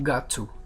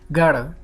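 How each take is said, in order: First: Both words are said separately and in full. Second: The words are run together into one reduced word.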